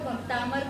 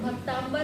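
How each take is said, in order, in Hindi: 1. शब्द सादी 'm' ध्वनि से खत्म होता है, 'amar'। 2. शब्द नासिक्य 'mb' ध्वनि से खत्म होता है, 'ambar'। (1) "भक्तामर करना है सभी को" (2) "भक्ताम्बर नहीं करना है इसको"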